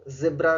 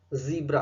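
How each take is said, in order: First: ज़ेब्रा with a short E, ZEB-ra; wrong zebra pronunciation. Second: ज़ीब्रा with a long EE, ZEE-bra; correct ZEE-bra pronunciation. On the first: (ज़ेब्रा में ई की जगह ए का उच्चारण) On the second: (ज़ीब्रा में लंबी ई का उच्चारण) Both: Shown as a demonstration. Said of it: "ज़ेब्रा गलत होता है".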